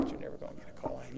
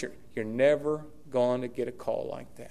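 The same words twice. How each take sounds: First: Quiet fast aside. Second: Said in the usual way. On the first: Real, not acted. Repeated for emphasis.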